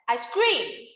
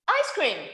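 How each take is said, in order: First: The stress falls on the second word. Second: The stress falls on the first word. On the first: It means the speaker screams. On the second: It names the frozen dessert.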